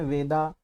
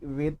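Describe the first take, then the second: First: The word ends with an added 'a' vowel. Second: The word ends on the consonant 'd'.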